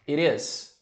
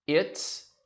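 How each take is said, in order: First: The t sound links into the next word. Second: The two words merge into one syllable. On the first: "você pega esse som aqui e ligo" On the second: "também posso juntar o som"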